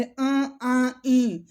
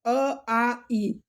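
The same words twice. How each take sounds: First: "अ, आ, ई" sent through the nose; nasalised vowels. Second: "अ, आ, ई" from the mouth only; oral vowels, no nasality. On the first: Teacher adding nose sound to the vowels, "अ, आ, ई" nasalised. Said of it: "नाक का उच्चारण कर देंगे". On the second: Teacher removing the nose sound, "अ, आ, ई" purely oral. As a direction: keep "अ, आ, ई" free of any nasal sound. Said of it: "नाक का उच्चारण हटा". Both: Shown as a demonstration.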